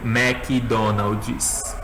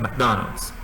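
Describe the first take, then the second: First: The word is said slowly, syllable by syllable. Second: The word is said quickly, syllables run together. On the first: The speaker calls it wrong. "Não é tipo McDonald's. Eles não vão entender" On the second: The speaker calls it right. "eles falam até mais rápido"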